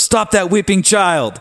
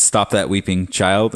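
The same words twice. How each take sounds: First: The misread line, pitched way up and stretched; high mock wail. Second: Said in the usual way. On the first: Shown as a demonstration. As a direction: stop that weeping child, much higher and slow. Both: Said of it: "And I thought it was".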